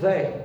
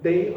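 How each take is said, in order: First: The first sound is a voiced th. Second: The first sound is a plain d. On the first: "como muita gente pronuncia" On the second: "se vocês falarem como D, simplesmente como D, não tem problema nenhum"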